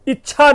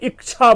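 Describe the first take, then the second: First: The middle has a plain 'chch' sound. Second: A 'k' sound is added before 'chh'. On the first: The speaker calls it right. "इच्छा ना बोल करके" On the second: The speaker calls it wrong. "ई और छ के बीच में क आ जाता है"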